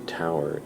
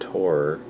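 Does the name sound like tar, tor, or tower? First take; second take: tower; tor. First: It rhymes with the word tower. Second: It rhymes with the word tor. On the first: "it sounds like T O W E R" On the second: "it sounds like T O R"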